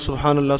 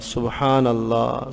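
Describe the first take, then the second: First: It is said quickly, hurried. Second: It is said slowly, with pauses.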